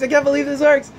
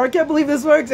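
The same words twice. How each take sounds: First: Echoing the disbelief, still pitched high; a high, mock-stunned repeat; amazed client. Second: Pitched up high in mock amazement; an imitated gasp of disbelief, high; amazed client. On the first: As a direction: say it again, just as wowed. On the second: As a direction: play the stunned client who can't believe it. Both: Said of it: "and they're like".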